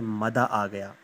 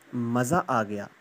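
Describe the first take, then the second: First: The first word is said with a d sound. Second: The first word is said with a z sound. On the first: "जो तुतलाकर बोलेगा वो कहेगा" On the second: "हम अपने normal language में कहते हैं"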